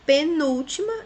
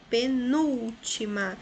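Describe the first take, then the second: First: Said in the usual way. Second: Penúltima drawn out, pe-NÚL-ti-ma; stressed syllable demo. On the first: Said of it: "é um exemplo disso". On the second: Shown as a demonstration. Teacher showing the example, penúltima stressed on núl. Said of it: "é de trás pra frente a terceira".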